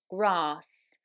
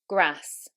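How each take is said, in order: First: The vowel is a long 'ah' sound. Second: The vowel is a short 'a' sound. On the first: This is the modern southern British standard accent. "the following words are actually said with a long R" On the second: This is the northern English or American accent. "in the north of England, they are said with short ah"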